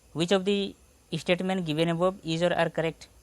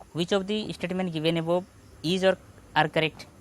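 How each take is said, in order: The two takes are said the same way.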